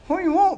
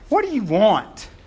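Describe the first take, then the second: First: It is said in a warm, friendly tone. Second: It is said in a hostile, demanding tone.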